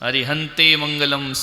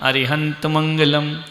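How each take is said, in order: First: The first word ends in an 'e' vowel. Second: The first word ends with no added vowel. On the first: The speaker calls it wrong. "अरिहंते भी नहीं बोलना है। अरिहंते मंगलम सिद्धे मंगलम, गलत।" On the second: The speaker calls it right. "क्या बोलने का? अरिहंत मंगलम"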